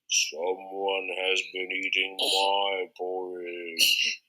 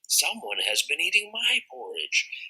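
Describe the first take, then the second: First: A big, deep, growling Papa Bear voice. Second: A medium-sized Mama Bear voice, not growled.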